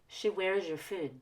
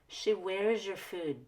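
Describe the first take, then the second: The two takes are said the same way.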